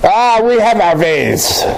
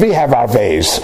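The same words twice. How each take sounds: First: Put-on slow German accent. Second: Lightly imitated German accent. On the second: Esther answering Janet's question about leaving, low German accent. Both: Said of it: "with her German accent".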